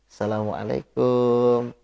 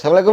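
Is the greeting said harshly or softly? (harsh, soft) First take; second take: soft; harsh. First: The greeting is said in a soft, coy voice. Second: The greeting is said in a harsh, firm voice. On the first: The voice could become a temptation. The speaker calls it wrong. "Jangan malah andu-andu" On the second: The voice gives no cause for temptation. The speaker calls it right. "dia harus kasar ngomongnya. Harus tegas"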